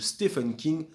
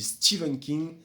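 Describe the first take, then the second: First: The name is said with a French pronunciation. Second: The name is said with an American pronunciation. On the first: "la prononciation française" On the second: "la prononciation américaine"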